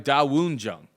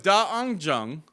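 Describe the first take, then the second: First: The middle syllable is said as 'woon'. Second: The middle syllable is said as 'ung'. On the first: This is the newer way the name is said. "when did we start calling this guy Da Woon Jung?" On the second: This is the way the name was said for years. "we've been calling him Da Ung Jung, D U uh, U N instead of Woon"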